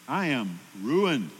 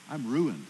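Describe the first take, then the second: First: 'I am ruined' drawn out slowly, leaning on 'ruined'; slow, weighty 'I am ruined' with a falling end; slow emphatic repeat. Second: Said in the usual way. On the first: Acted. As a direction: repeat it slower, letting 'ruined' land heavily.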